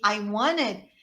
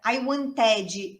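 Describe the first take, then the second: First: "wanted" reduced to "wanned", no T; native pronunciation. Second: "wanted" with a full T and "djee" ending; Brazilian learner's pronunciation. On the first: Shown as a demonstration. Teacher contrasting two versions for students, native-style reduced "wanted". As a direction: glide through "wanted", dropping the T. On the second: Retold or imitated. Teacher contrasting two versions for students, Brazilian-accented "wanted". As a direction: break "wanted" into "wan-teh-djee", Brazilian style. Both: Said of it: "são duas coisas completamente diferentes".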